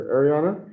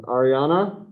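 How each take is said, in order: First: "Ariana" opening with AIR, air-ee-AH-na; second pronunciation option. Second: "Ariana" opening with AH, ah-ree-AH-na; first pronunciation option. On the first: Teacher offering the other way to say a name, "Ariana" starting AIR. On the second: Teacher checking a student's name in roll call, "Ariana" starting AH. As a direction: say "Ariana" with an AR as in car. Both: Shown as a demonstration. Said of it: "How do you guys say that?".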